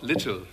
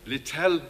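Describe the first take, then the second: First: The stress is on the first syllable. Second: The stress is on the last syllable. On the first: This is the misspelled form from the poster. The speaker calls it wrong. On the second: This is the author's actual name. The speaker calls it right.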